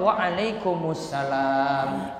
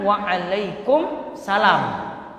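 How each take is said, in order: First: The reply has an 'us' sound before 'salam'. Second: The reply has no 'us' sound before 'salam'. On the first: The speaker calls it right. "Berarti jawab juga dengan ada alif lamnya" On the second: The speaker calls it wrong. "Bukan wa'alaikum salam"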